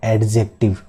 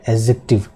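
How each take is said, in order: First: The d sound is heard. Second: The d sound is silent. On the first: The speaker calls it wrong. "Not" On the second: The speaker calls it right. "Silent रखना है"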